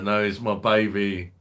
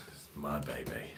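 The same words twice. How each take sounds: First: Proud loud declaration. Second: Softer and lower, under the breath; soft lower repeat. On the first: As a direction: announce it loud like showing off your pride. Repeats phrase, first loudly. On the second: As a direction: murmur it again fondly to yourself. Repeats phrase, then softly. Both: Acted.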